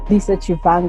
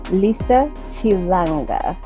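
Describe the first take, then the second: First: The surname is said with a V sound. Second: The surname is said with an L sound. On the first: The speaker calls it wrong. "They say va ... That's not what it's supposed to" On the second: The speaker calls it right. "this is how you pronounce my surname"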